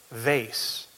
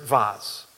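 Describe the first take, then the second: First: VASE said to rhyme with face; American pronunciation. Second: VASE said as VAHZ; alternative pronunciation. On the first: Checking a word with the congregation, vase rhyming with face. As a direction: say vase with a long AY and S. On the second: Querying the word before the congregation, vase said as VAHZ. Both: Shown as a demonstration. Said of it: "Or is it vase?".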